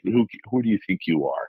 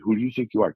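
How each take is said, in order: First: It sounds scornful and indignant. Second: It sounds sincere and genuinely curious. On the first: The listener has no right to try this. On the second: The speaker truly wants to know the answer.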